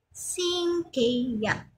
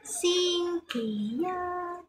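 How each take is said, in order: First: The last syllable has a falling pitch. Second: The last syllable is on a high level pitch. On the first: It means Sunday. "Pero yung sa Sunday, pababa siya" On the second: It means Monday. "Kaso yung Monday, mataas"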